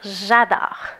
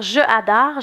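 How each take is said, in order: First: The vowel of 'je' is dropped before 'adore'. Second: The word 'je' keeps its full vowel. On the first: The speaker calls it right. "je vais dire j'adore" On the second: The speaker calls it wrong. "Au lieu de dire je adore"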